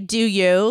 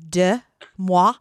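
First: The name is said like English 'do you'. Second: The name is said with a French pronunciation. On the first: The speaker calls it wrong. "But I like to say do you" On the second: The speaker calls it right. "You're correct. It's Dumois"

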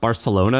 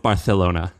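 First: The c is said as a plain s. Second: The c is said with a lisp, like th. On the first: "you know it's pronounced Barcelona" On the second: "the king of Spain had a lisp"

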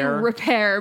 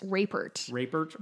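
First: The name ends like 'pair', with no t. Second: The name ends with a clear t sound. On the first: The speaker calls it wrong. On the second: The speaker calls it right.

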